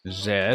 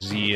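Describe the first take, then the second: First: It is said the non-American way, like 'zed'. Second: It is said the American way, like 'zee'.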